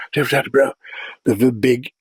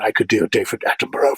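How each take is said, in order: First: Quick, hushed nature-documentary narrator; a light take on a British naturalist presenter; David Attenborough impression. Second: Said in the usual way. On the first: Shown as a demonstration.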